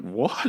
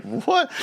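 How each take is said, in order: First: A small, contained "what"; mock disbelief. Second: Very high squeaked "what"; mock incredulity. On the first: Son answers mum's footpath order, understated mock disbelief. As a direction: play mild, stunned disbelief. Child disbelieves, first take. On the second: Son looks at mum, exaggerated high-pitched disbelief. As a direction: send the question shooting up in disbelief. Child disbelieves, escalated second take.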